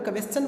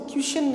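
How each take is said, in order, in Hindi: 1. अंत को 'chun' की आवाज़ से बोला जाता है। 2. अंत को 'shun' की आवाज़ से बोला जाता है। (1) "क्वेश्चन बोले" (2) "उसको क्वेश्चन न बोलकर"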